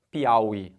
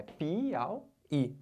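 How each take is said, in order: First: PIAUÍ said as one joined word, au-í unbroken; run together. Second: PIAUÍ broken apart, soft, pi-au-í; split into syllables. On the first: Teacher showing students how it won't be, run together. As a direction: say Piauí in one quick piece, no gaps. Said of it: "Não vai ficar". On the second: Teacher showing students it can't be all together, split syllables. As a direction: separate Piauí into pi, au, í with gaps. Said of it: "Não pode ser tudo junto". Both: Shown as a demonstration.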